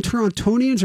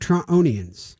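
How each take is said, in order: First: "Torontonians" with the second T sounded; T pronounced. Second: "Torontonians" with the second T silent; T dropped. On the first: Asking what to call them, "Torontonians" with the T pronounced. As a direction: say "Torontonians" with a clear T after the N. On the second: Asking what to call them, "Torontonians" with the T dropped. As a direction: say "Torontonians" with no T after the N. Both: Shown as a demonstration. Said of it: "we don't pronounce the T".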